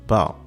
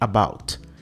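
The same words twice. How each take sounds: First: The opening vowel and final t are dropped. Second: The full word is said with its opening vowel. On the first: "Ele corta o A e o T também é cortado" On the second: "ele não diz about"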